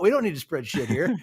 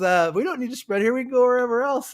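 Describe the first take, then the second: First: Punchline through laughter; laughing. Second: Higher, louder, lively retelling; friendly offer. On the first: Real, not acted. Telling his friends the story's punchline, laughing. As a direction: crack up while saying it. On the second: Retold or imitated. Grandpa tells the new neighbor they'll spread elsewhere, higher and louder. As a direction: make the generous offer brightly.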